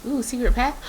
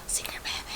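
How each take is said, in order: First: Bright, thrilled find; excited discovery. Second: Hushed gasp, secret path; gasped whisper. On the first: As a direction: call out the secret path. Spots hidden path excitedly. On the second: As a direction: breathe it out in awe. Gasps, whispers the discovery. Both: Real, not acted.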